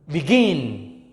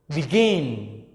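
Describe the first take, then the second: The two takes are said the same way.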